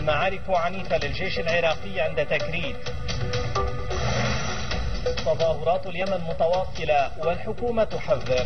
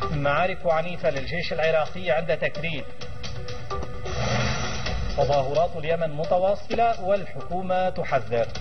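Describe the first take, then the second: The two takes are said the same way.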